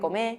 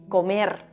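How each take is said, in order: First: The final r sound is dropped. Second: The final r sound is clearly pronounced.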